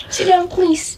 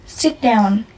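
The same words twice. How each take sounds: First: "Sit down, please" pitched higher and coaxing; pleading mum. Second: Said in the usual way. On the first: Shown as a demonstration. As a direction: ask the child sweetly, higher.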